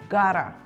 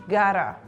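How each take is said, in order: No difference in how they are said.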